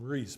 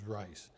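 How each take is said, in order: First: The vowel sounds like 'ee', as in 'see'. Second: The vowel sounds like 'eye', as in 'ice'. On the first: The speaker calls it wrong. "Some people call him Reese" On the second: The speaker calls it right. "I think the correct pronunciation is Rice"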